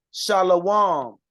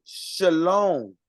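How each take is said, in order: First: Shalom said as three syllables, sha-la-WAHM; teacher's model Shalom, pronounced "shah-lah-wahm"; Hebrew pronunciation. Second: Shalom said as two syllables, sha-LOHM; imitated shalom, slow, ending in "lohm"; Yiddish-style pronunciation. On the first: Shown as a demonstration. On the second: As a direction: draw out shalom with an "oh" vowel. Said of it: "if you hear them say it, they say".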